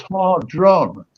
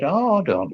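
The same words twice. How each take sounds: First: Hardron said with an r after the d, har-dron; Hardron, slow and careful, the r clearly rolled in; Hardron, the proper version; correct name. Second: Hardon said as har-don with no second r; Hardon, plain two beats, no r after the d; Hardon, the misheard short form; misheard name. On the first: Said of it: "but it was Hardron". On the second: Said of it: "I thought he said". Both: Retold or imitated.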